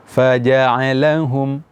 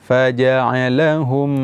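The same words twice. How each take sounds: No difference in how they are said.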